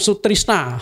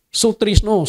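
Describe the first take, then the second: First: Sutrisna ending in an open A; Javanese A ending. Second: Sutrisno ending in a rounded O; Javanese O ending. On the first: Pastor shows the same name with an A ending. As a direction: say Sutrisna with the final A sound. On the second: Pastor shows the Javanese name with an O ending. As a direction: say Sutrisno with the final O sound. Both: Shown as a demonstration. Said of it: "orang Jawa tuh suka O A".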